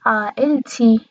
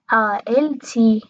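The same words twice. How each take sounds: The two takes are said the same way.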